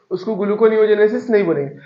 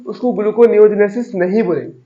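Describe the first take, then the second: First: नहीं hit firmly after a pause, falling; stress on NAHIN. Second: Weight on gluconeogenesis, नहीं left light; stress on term. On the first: Tutor correcting the student, stressing नहीं with a fall. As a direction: correct yourself by punching नहीं. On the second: Tutor to student, naming the term with stress on gluconeogenesis. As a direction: lean on the word gluconeogenesis as you name it. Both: Shown as a demonstration.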